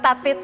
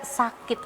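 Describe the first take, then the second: First: The word begins with a t sound. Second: The word begins with an s sound. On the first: A young child's lisped speech. The speaker calls it wrong. "bukan tatit lagi ya" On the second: The correct adult pronunciation. The speaker calls it right. "tetapi tidak sakit lagi"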